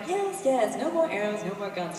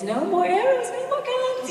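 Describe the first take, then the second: First: Said in the usual way. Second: Rising higher and higher on the last words; a mock line reading climbing way up; line reading, descending. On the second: Shown as a demonstration. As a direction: show him how it should soar. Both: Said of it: "finally she was giving him line reading".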